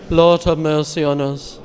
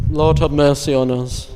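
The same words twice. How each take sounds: The two takes are said the same way.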